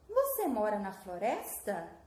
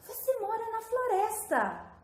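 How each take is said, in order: First: It is said with a questioning intonation. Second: It is said with a surprised, exclaiming intonation. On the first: It asks for information. "O que que mudou na minha entonação? Eu fiz o quê? Uma pergunta" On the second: The speaker is astonished by the fact. "Como que eu estou? Sou surpresa"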